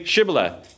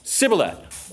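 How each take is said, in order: First: "shibboleth", opening on a hushing SH. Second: "sibboleth", S in place of SH; sibboleth without SH. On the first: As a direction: give "shibboleth" as a test word, SH first. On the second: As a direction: say "sibboleth" with a plain S at the start. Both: Shown as a demonstration. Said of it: "They can't pronounce the sh sound".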